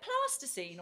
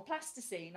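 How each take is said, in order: First: PLASTICINE with a long southern AH; southern vowel. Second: PLASTICINE with a short northern A; northern vowel. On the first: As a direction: say PLASTICINE as "plah-sticine". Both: Acted. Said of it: "never sure which one to use".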